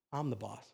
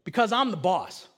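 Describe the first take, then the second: First: Much lower, softer deadpan comeback; toddler's defiant echo. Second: Firm parental last word, at full voice; asserting authority. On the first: Two-year-old answering his father back, quietly defiant. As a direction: imitate the child quietly claiming authority. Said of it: "looked at me and goes". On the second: Father finally answering his son's whys, firm. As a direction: lay down the law, retold. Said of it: "then finally I just go". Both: Retold or imitated.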